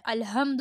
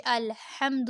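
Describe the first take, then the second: First: "الحمد" as a rounded "al-hum-du"; plain h and dull vowel in "الحمد"; wrong rounded h. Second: "الحمد" with a tight breathy h from the throat; open, thin a after the h in "الحمد"; correct throat h. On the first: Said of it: "الحمد نہیں ہوتا". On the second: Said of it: "جیسے الحمد ہوتا ہے". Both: Shown as a demonstration.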